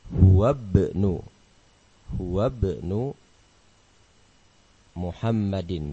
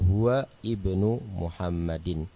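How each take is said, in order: First: The words run together, with the glottal stop dropped. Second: Each word is said separately, with the glottal stop. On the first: "semestinya dibaca bersambung" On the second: "Ini kita baca satu persatu dulu"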